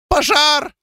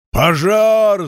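First: Very high, squealed cry of alarm; shrill squeal. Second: Raised, drawn-out shout; higher, long cry of fire alarm; renewed alarm yell. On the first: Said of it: "Взвизгнув, дворф припустил по улице". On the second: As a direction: yell the alarm with fresh force. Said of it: "заорал он с новой силой". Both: A narrator's reading.

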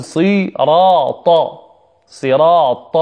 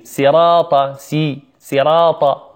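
First: صراط slowly with heavy ص, ر and ط; correct heavy saad. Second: صراط begun with a thin "si", as "sirata"; wrong seen sound. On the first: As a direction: stretch صراط with a dark emphatic s. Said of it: "نقول". (نطق صراط بصاد مفخمة) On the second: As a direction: say صراط with a light س in place of ص. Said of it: "كثير من الناس ينطقها بالسين". (نطق صراط بالسين خطأً) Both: Shown as a demonstration.

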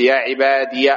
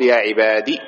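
First: "عبادي" ending in -iya; voweled final ya. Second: "عبادي" ending in short i, ya dropped; lower-pitched "عبادي" as ibadi; kasra only. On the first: Teacher giving an example, "عبادي" with fatha on ya. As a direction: say "عبادي" as ibadiya. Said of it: "وبالياء ساكنة ومفتوحة". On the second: Teacher dropping the ya, "عبادي" ending on a kasra. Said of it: "الياء تمامًا وتبقي الكسرة فقط". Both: Shown as a demonstration.

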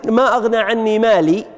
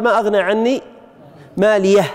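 First: Said in the usual way. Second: Pause, then "ماليه" ending in an audible h; final haa of pausing. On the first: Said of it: "قال". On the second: Shown as a demonstration. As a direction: close "ماليه" on a breathed h, "maaliyah". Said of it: "هل هذه الهاء".

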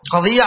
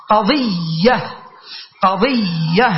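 First: Said in the usual way. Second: قضية very slowly, holding the middle iyy; drawn-out syllable. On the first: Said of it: "على وزن فعيلة". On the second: Shown as a demonstration. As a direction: stretch the doubled ya in قضية. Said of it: "هي مثل صحيفة".

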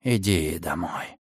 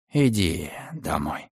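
First: Low, slow hush; soft whisper. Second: Slow falling lullaby hush; lulling. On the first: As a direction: whisper it to a baby. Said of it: "шепнул он". (тихий шёпот) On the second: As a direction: rock it to sleep with words. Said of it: "укачивая её". (убаюкивающе) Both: A narrator's reading.

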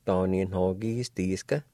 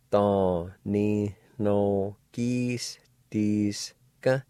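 First: Said in the usual way. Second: To ni no kis dis ka very slow and drawn out; slow demo. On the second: Shown as a demonstration. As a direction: spell To ni no kis dis ka out slowly for learners. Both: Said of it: "pronounced like this".

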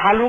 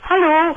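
First: Said in the usual way. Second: Loud high call of Hallo. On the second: Retold or imitated. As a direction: call Hallo out across the house. Rief der.

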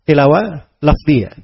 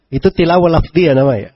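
First: Tilawah lafziyah said slowly, each word spaced; slow, deliberate restating of tilawah lafziyah; slow emphatic repeat. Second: Said in the usual way. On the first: Shown as a demonstration. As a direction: drag out tilawah lafziyah to drive it home.

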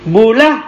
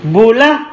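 The two takes are said the same way.

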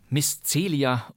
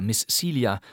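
First: "Celia" said the German way, "Tselia"; "Celia" with a hard German ts sound; German reading. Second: "Celia" said the English way, "Seelia"; English pronunciation. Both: Shown as a demonstration. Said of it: "oder wahrscheinlich eher Miss Celia".

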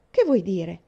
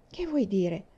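First: Louder, pressing question; asking again, louder and more urgent; insistent repeat. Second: Said in the usual way. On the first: A narrator's reading. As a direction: push for the answer now.

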